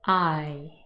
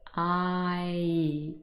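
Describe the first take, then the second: First: The glide is said quickly as one sound. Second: The glide is said slowly and drawn out.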